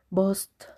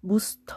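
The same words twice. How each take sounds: First: "Boost" said "bost", with a plain o vowel; "Boost" as "bost", unsure; first try at Boost. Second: "Boost" said "bust", with an oo vowel; "Boost" as "bust", still unsure; second try at Boost. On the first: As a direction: read "Boost" as "bost", Spanish o. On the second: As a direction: correct "Boost" to "bust", English oo. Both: Shown as a demonstration. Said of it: "o como se pronuncie".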